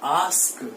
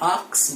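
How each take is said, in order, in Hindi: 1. k ध्वनि s के बाद आती है। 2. k ध्वनि s से पहले आती है। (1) "दैट मीन्स आस्क" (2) "ज्यादातर लोग इसे ask को आक्स बोलते हैं"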